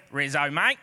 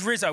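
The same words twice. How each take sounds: First: Lower-pitched mock Aussie "mate"; Australian accent. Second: Said in the usual way. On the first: Preacher retelling how the word sounded in his head, Australian accent. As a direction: say it like a matey Australian. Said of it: "went down an Australian accent". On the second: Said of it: "But the word is Rizzo".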